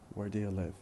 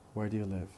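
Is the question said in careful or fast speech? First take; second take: fast; fast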